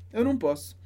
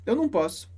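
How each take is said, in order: Both takes have the same delivery.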